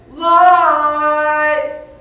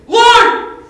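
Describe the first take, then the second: First: The word is said in a calm, plain voice. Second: The word is barked out like a sharp order.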